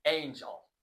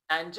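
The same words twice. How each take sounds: First: "Angel" opening with the long A of the letter's name; long-A vowel. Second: "Angel" opening with a short A as in "and"; wrong short-A vowel. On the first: Teacher giving learners the correct word, "Angel" with long A. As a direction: say "Angel" like "AIN-jel", first vowel long. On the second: Teacher warning learners off a mistake, "Angel" with short A. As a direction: say "Angel" like "AN-jel", with a flat short first vowel. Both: Shown as a demonstration. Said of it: "Angel هم نیستش".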